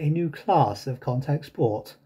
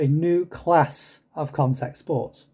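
First: It is said in a southern English accent. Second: It is said in a northern English accent. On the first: This is the way some listeners would prefer. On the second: This is the speaker's own way of speaking.

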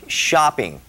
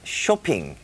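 First: It is said with an American English accent. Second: It is said with a Korean accent.

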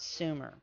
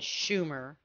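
First: The word begins with an s sound. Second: The word begins with an sh sound. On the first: The speaker calls it wrong. "except for mispronouncing the name" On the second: The speaker calls it right. "it should have been Shumer"

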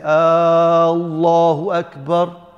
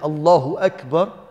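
First: The first vowel is drawn out long. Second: The first vowel is short. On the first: It is a question. The speaker calls it wrong. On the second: It is a statement. The speaker calls it right.

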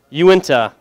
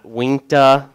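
First: The name is said as 'you-in-tuh'. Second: The name is said as 'wink-tuh'. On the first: The speaker calls it right. "Uinta, not Unita" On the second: The speaker calls it wrong. "not Winkta. My dad calls it that still"

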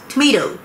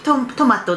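First: It is said with English-style sounds. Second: It is said with Japanese-style syllables. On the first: The speaker calls it right. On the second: The speaker calls it wrong. "トマトじゃなくて"

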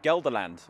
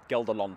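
First: It is said with an English pronunciation. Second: It is said with a Dutch pronunciation.

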